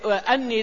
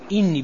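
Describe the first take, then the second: First: The word begins with an 'a' vowel. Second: The word begins with an 'i' vowel. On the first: The words follow an implied preposition. "بفتح الهمزة" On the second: Someone is saying the words directly. "بكسر الهمزة"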